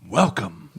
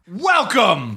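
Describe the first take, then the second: First: It is said softly and calmly. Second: It is said loudly and intensely.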